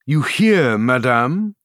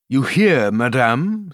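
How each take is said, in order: First: Pressing the taunt harder; gloating king, louder. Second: Cold, pleased royal taunt; gloating king. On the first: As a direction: repeat it, leaning in with cruelty. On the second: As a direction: savour her discomfort. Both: A narrator's reading. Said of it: "who enjoyed the embarrassment".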